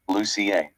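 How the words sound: It is said the Scandinavian way. "if you're from Scandinavian countries"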